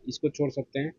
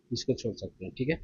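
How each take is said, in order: First: Said in the usual way. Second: इसको छोड़ सकते हैं said much lower and softer; a hushed, lower repeat of the instruction; quiet low aside. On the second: Real, not acted. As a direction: drop the voice low and soft on the repeat. Teacher repeats skip instruction.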